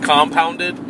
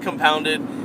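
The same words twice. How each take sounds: First: Every syllable is given equal emphasis. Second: A single syllable carries the stress. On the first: "he emphasizes every syllable" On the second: "I say Compounded"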